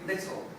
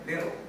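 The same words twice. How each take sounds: First: The middle consonant is a clear t. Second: The middle consonant is a soft d. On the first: "Americans don't say little" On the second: "they go like little"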